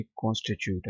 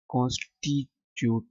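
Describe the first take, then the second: First: कॉन्स्टिट्यूट with a British "choot" ending; British pronunciation. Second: कॉन्स्टिट्यूट said slowly the way not to say it; wrong pronunciation. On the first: Teacher gives students the correct British कॉन्स्टिट्यूट. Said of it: "यहाँ पे pronounce करते वक्त यू आता है". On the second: Teacher shows students the wrong कॉन्स्टिट्यूट. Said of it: "कॉन्स्टिट्यूट नहीं है". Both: Shown as a demonstration.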